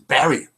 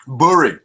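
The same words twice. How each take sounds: First: Said in the usual way. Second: "Bury" said as BOO-ree, the u like in put; "Bury" with a short oo sound, BOO-ree; northern Bury. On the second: Shown as a demonstration. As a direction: say "Bury" the Lancashire way, BOO-ree not BERR-y. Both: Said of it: "That's how she talks".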